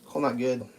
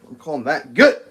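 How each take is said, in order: First: Said in the usual way. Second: Firm, louder declaration. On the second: Real, not acted. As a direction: say it with finality, louder.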